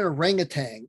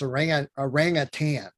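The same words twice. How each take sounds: First: The word ends with an ng sound. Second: The word ends with a plain n sound. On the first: The speaker calls it wrong. "It's not an orangutan" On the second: The speaker calls it right. "There's no G on the end"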